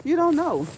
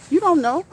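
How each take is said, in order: First: Higher, louder repeat with a laugh behind it; emphatic. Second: Higher, louder insistence; emphatic. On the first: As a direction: drive it home again. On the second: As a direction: drive it home with force. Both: Real, not acted. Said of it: "Don't you ever tell".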